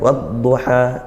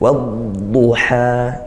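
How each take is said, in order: First: The dad sound is short, not drawn out. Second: The dad sound is drawn out along the tongue. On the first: The speaker calls it wrong. "itu sudah betul makhrajnya, tapi kurang sempurna di sifat istitolahnya" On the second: The speaker calls it right. "seperti itu"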